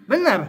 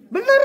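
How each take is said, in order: First: "Benar." said as a firm statement, pitch falling at the end. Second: "Benar." jumping much higher and rising like a question. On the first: Shown as a demonstration. Teacher testing students' answer, "Benar." with a falling tune. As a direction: settle "Benar." down like a sure answer. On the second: Retold or imitated. Teacher mimicking students' doubtful reply, "Benar." rising high. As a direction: echo the class's unsure "Benar.?" with a high rise. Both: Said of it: "jawab apapun saya nadanya gitu".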